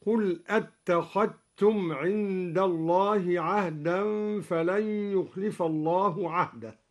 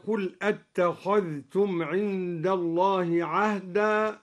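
First: أتخذتم said attakhattum, dhal merged into ta. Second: أتخذتم with dhal and ta both sounded; clear dhal in أتخذتم. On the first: Teacher demonstrating al-Duri's assimilation. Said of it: "أدغم الدوري الذال في التاء، هكذا". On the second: Teacher reciting the base reading of أتخذتم. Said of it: "أدغم الدوري الذال في التاء". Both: Shown as a demonstration.

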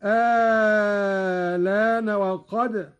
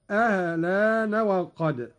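First: آلان opening on a very long held aa, no second hamza; long madd. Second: آلان with a short opening and an eased second hamza; softened hamza, short. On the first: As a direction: stretch the first aa of آلان, then slide into laana. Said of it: "مع المد الطويل". (إبدال الهمزة الثانية في آلان مدا طويلا) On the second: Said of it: "وله تسهيلها مع القصر". (تسهيل الهمزة في آلان مع القصر ونقل اللام) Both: Shown as a demonstration.

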